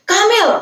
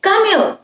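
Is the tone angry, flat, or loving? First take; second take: angry; angry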